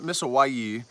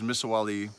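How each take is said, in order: First: The name is said without a clear L sound. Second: The name is said with a clear L sound. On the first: This is the Spanish way of saying the name. The speaker calls it wrong. "that's how the Spanish pronounce it" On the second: This is the original Quechua way of saying the name. The speaker calls it right. "it's Quechua, so it actually is Misawali"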